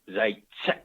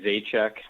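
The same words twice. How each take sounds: First: The name is said with a harsh, spitting Czech pronunciation. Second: The name is said with a plain English pronunciation. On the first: "he's big on the proper pronunciation, and it's Zajac, and he almost kind of spits when he says that" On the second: "I just say, uh, I say Zajac"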